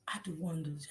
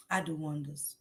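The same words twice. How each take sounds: First: Unvoiced whispered "I do wonders". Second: Said in the usual way. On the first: Real, not acted. Boasting to the chat about cooking, whispered.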